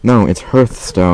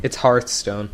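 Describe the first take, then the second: First: "Hearthstone" said with an r-coloured "hurth"; Hearthstone, American way. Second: "Hearthstone" said with a broad "hahth"; Hearthstone, British way. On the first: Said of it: "Deus speaks Scottish". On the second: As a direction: say "Hearthstone" with an open ah. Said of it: "he said it's Hearthstone". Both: Shown as a demonstration.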